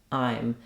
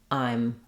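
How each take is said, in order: Both takes have the same delivery.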